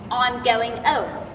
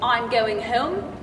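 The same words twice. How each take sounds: First: Home begins with no h sound. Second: Home begins with an h sound.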